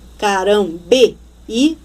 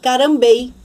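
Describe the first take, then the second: First: The final e and i are split into two syllables. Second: The final e and i merge into one syllable. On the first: The speaker calls it right. "porque forma um hiato" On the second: The speaker calls it wrong. "Se eu não acentuar esse I, eu vou ler"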